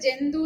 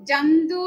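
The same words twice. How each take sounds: First: The first vowel is coloured toward 'e'. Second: The first vowel is a pure open 'a'. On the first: This is the everyday Malayalam pronunciation. "മലയാളത്തിൽ നമ്മൾ ജന്തു എന്നാണ് പറയുന്നത്" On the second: This is the Sanskrit pronunciation. "ജന്തു എന്ന് തന്നെ സംസ്കൃതത്തിൽ പറയണം"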